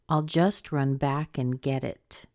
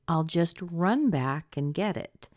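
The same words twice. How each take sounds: First: The strongest stress falls on the word back. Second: The strongest stress falls on the word run. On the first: "I've been stressing this back" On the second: "Run back could be stressed too"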